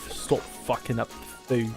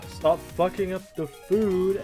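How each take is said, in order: First: It is said in a British accent. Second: It is said in a Valley Girl accent.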